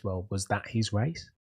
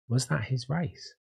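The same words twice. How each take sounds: First: Said in the usual way. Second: That leaned on, slower and higher; slow down and punch that; stress on that. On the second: Shown as a demonstration. Answering critics of Lando, slow question stressing that. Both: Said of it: "when people are saying that".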